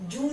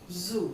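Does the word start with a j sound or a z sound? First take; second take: j sound; z sound. First: It starts with a j sound. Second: It starts with a z sound. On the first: The speaker calls it wrong. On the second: The speaker calls it right.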